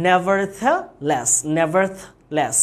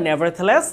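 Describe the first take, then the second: First: Nevertheless said very slowly, each syllable drawn out: ne-ver-the-less; slow pronunciation demo. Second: Said in the usual way. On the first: Shown as a demonstration. Teacher models nevertheless for the class, very slow. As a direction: spell out nevertheless slowly for the student. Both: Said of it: "উচ্চারণটা".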